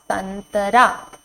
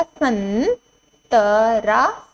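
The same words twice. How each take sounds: First: Said in the usual way. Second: संतरा drawn out slowly, rising end; slow teacher drill; slow sounding out. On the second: Shown as a demonstration. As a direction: stretch संतरा syllable by syllable. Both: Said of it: "इस पर अंग की मात्रा लगाएंगे".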